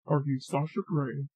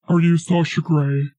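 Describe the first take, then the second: First: Soft question. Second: Loud repeat. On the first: Testing a man's voice on someone, soft question. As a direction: ask it softly. First asking, then repeated after "What?. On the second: Repeating the question after "What?", loud and forceful. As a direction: ask it loudly. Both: Pretend.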